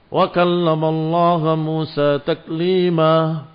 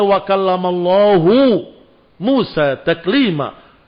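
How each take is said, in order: First: The word Allah ends with an a vowel. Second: The word Allah ends with a u vowel. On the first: The speaker calls it wrong. "baca Quran harokatnya dirubah sedikit saja" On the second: The speaker calls it right.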